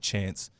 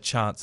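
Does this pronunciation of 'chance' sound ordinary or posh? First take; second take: ordinary; posh. First: It is said in an ordinary, everyday way. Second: It is said in a posh, upper-class way. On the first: This is how everyone else says it. "as opposed to chance" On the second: This is how people in the private-school crowd say it. "they say chance ... in the rugby union circles"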